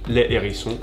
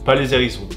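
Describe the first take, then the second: First: No z sound links the article to the noun. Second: A z sound links the article to the noun. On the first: The speaker calls it right. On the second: The speaker calls it wrong.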